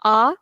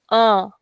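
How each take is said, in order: First: Said in the usual way. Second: A nasalised, out through the nose; nasal vowel. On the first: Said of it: "If we have this accent". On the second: Shown as a demonstration. Teacher demonstrates tilde accent, nasal a. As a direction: send a through your nose. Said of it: "nasal sound".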